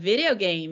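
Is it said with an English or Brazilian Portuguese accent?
English. It is said with an English accent.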